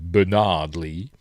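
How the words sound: The name is said in an American way.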